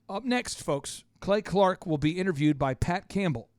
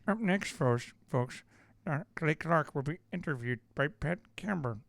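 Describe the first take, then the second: First: It is said in his normal voice. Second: It is said in a put-on, nasal political voice.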